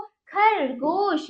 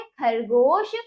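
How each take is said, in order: First: खरगोश drawn out very slowly, syllable by syllable; slow teacher demo of खरगोश; slow model word. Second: Said in the usual way. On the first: Shown as a demonstration. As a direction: stretch खरगोश so kids hear every sound. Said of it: "आगे बच्चों". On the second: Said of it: "ये क्या है?".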